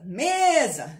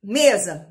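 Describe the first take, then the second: First: "mesa" called out with a long "me"; demorando na tônica. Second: Said in the usual way. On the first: Shown as a demonstration. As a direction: stretch and lift the first syllable of "mesa". ("mesa" com o "me" demorado, como chamando) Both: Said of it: "a sílaba que você demorar".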